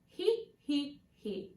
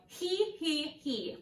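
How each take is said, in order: First: He he he with a round neutral E. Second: He he he with a wide spread E. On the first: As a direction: round the lips on he. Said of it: "a more round and neutral E". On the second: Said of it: "with a wide E". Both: Shown as a demonstration.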